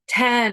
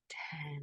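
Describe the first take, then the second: First: It is said in a tense, hurried way. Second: It is said in a soft, slow way. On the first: The speaker calls it wrong. "It's not this" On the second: The speaker calls it right. "softly, slowly, soothingly, lovingly"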